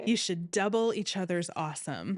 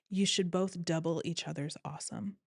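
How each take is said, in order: First: Louder Hawaiian surfer accent, hammed a bit; Hawaii surfer boy. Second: Put-on laid-back Hawaiian surfer accent, lightly done; Hawaii surfer boy. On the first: Repeating the friend's advice in a hammed Hawaiian surfer accent. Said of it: "Hawaii surfer boy". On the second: Friend's wedding advice in a light Hawaiian surfer accent. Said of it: "Hawaii surfer boy, put that accent in your brain".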